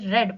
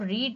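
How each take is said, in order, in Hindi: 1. स्वर छोटा है, जैसे 'bed' में। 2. स्वर लंबा है, जैसे 'need' में। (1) "सेकंड और थर्ड फॉर्म में हम उसको... रेड पढ़ते हैं" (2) "हम उसको रीड ना पढ़ के"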